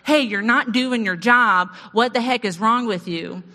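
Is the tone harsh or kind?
harsh. It is said in a harsh, accusing tone.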